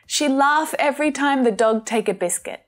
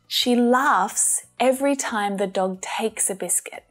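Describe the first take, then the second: First: The final S sounds on the verbs are dropped. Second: The final S sounds on the verbs are pronounced. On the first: The speaker calls it wrong. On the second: The speaker calls it right.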